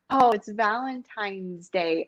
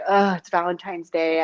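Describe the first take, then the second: First: The voice sounds light, curious and looking forward. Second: The voice sounds pressured and full of dread. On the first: The evening feels like something to enjoy. The speaker calls it right. "hear the tone of my voice, it's so different" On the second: The evening feels like an obligation. The speaker calls it wrong. "I have to have sex"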